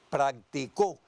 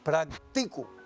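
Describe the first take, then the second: First: The stress falls on the last syllable. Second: The stress falls on the second-to-last syllable. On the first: "si acentuó la última sílaba, tiene una palabra aguda" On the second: "la sílaba acentuada es la penúltima"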